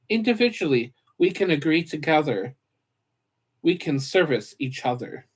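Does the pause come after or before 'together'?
after. The break comes after the word together. Agreeing is done jointly. The speaker calls it wrong. "Wait, hold on"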